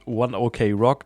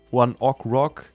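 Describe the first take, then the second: First: OK is said as the English letters O-K. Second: OK is said like the word o'clock. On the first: This is how the band is known to Western audiences. "I've decided to go with One OK Rock now" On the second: This is the band's original name pronunciation. "it's originally uh, One Ok Rock or something like that"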